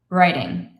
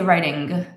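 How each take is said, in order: First: The word ends in a nasal sound without G. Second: The word ends with a hard G sound. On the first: The speaker calls it right. "it's just easier to not pronounce the G" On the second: The speaker calls it wrong. "I don't say writing"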